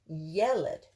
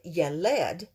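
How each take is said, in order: First: The stress is on the first syllable. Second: The stress is on the last syllable. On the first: The speaker calls it right. "The accent's towards the beginning of the word" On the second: The speaker calls it wrong. "It's not Yeled"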